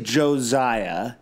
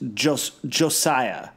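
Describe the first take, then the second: First: The middle consonant is a buzzing Z sound. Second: The middle consonant is a hard S sound. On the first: The speaker calls it wrong. "I say Josiah" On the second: The speaker calls it right. "you're saying it is"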